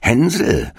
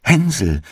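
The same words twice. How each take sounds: First: Hänsel called out high and drawn; witch calling. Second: Hänsel cried out high with relief; joyful call. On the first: Witch at the stall calling Hansel, high call. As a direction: sing out the boy's name slyly. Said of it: "schlich die Alte zu dem Ställchen und rief". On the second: Gretel freeing her brother, calling out joyfully. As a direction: call him with bursting joy. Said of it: "öffnete sein Ställchen und rief". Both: A narrator's reading.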